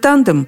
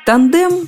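First: The stress is on the first syllable. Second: The stress is on the second syllable. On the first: This form is closer to the English source. "так ближе к языку-источнику, то есть к английскому, где ... ударение на первом слоге" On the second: This form arose after the word entered Russian. "так стали его произносить, когда слово перекочевало в русский язык"

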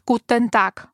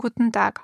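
First: It is said crisply, in a German accent. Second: It is said softly, in an Austrian accent.

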